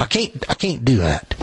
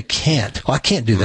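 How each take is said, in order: First: CAN'T drawled as "cain't" in Tennessee twang; Tennessee hillbilly accent. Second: Said in the usual way. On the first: Retold or imitated. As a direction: say it like a Tennessee country boy, "cain't". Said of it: "I said things like". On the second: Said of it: "they'll say".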